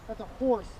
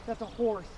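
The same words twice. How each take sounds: The two takes are said the same way.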